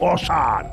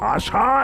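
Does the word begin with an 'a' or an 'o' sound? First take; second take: o; a. First: The word begins with an 'o' sound. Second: The word begins with an open 'a' sound. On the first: The speaker calls it wrong. "আষাঢ় ওদের কাছে হলো অসার" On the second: The speaker calls it right. "আরে আষাঢ় উচ্চারণ করতে পারে না"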